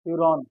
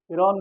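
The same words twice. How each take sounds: First: फ्यूरॉन with "fyu" at the start, pitched low; correct pronunciation. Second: फ्यूरॉन said as "firon", no y-glide; mispronounced फ्यूरॉन. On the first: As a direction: say फ्यूरॉन as "fyu-ron", lower. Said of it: "फ्यूरॉन बोलना". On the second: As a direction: say फ्यूरॉन wrongly as "fee-ron". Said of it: "फ्यूरॉन नहीं". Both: Shown as a demonstration.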